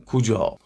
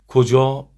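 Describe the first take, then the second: First: کجا said "kujâ", with an oo vowel; oo in the first syllable of کجا; o turned to u. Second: کجا said "kojâ", with a short o; clear, loud short o in the first syllable of کجا; standard vowel. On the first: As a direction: demonstrate regional کجا as "koo-jâ". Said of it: "او تبدیل به او بشه". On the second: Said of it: "کجا رو کمی شبیه به کجا بگن". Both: Shown as a demonstration.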